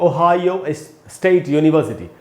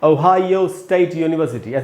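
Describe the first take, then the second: The two takes are said the same way.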